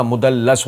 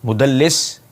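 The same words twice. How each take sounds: First: مدلس with a short a before the s, "mudallas"; corrected vowel, mudallas. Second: مدلس said alone with a short i, "mudallis"; wrong vowel, mudallis. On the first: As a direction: slowly correct مدلس to end in "las". (مدلس کو زبر کے ساتھ "مُدَلَّس" پڑھیں) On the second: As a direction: end مدلس on "lis", held up for correction. (مدلس کو زیر کے ساتھ "مُدَلِّس" پڑھیں) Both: Shown as a demonstration. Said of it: "نہیں ہوتا، مدلس ہوتا".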